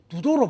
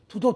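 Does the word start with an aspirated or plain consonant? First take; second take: plain; aspirated. First: The word starts with a plain d sound. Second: The word starts with an aspirated t sound. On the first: This is the original form of the name. "번역을 제대로 하면 두도로 발음해야죠" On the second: This is how people actually say the name now. "그것을 투라 합니다"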